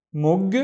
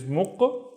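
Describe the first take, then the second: First: "mug" with a hard voiced g; "mug" as a careful single syllable, g released; g pronunciation. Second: "muq" with a back-of-throat q; "muq" closed by a hard q stop; q pronunciation. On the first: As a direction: end "mug" on a clear voiced g. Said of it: "we tend to pronounce this word actually with the other pronunciation". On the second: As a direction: end "muq" on a voiceless q instead of g. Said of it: "with the other pronunciation, which is muq". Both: Shown as a demonstration.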